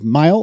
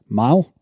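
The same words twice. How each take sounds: First: The vowel is short and clipped. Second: The vowel is long and drawn out, Southern-like.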